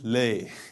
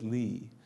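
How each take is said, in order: First: The word ends in an 'ay' sound. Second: The word ends in an 'ee' sound. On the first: The speaker calls it wrong. "if I put a fatha here. It would come out as lay. That sounds kind of weird" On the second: The speaker calls it right. "I put a kasra here. I said li"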